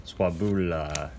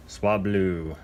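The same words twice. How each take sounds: First: "Swabula" said slowly as three syllables, swa-bu-la; mispronounced Swablu. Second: "Swablu" said as two crisp syllables, swab-lu; corrected Swablu. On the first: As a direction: stumble over "Swabula" with an extra syllable. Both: Shown as a demonstration. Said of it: "I can't say that one".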